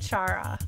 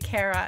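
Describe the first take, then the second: First: The name does not begin with a k sound. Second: The name begins with a hard k sound. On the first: "I always said Chara" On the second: "it makes sense for it to be Kara if it's the beginning of character"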